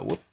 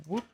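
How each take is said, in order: First: Low whoop. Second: Rising whoop. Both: Retold or imitated. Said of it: "by just going like".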